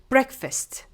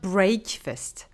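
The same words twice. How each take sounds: First: The first vowel is a short 'e' sound. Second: The first vowel is a long 'a' sound. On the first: The speaker calls it right. "We need to make the sound E instead of A. So we say breakfast" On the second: The speaker calls it wrong. "not breakfast. I hear generally break"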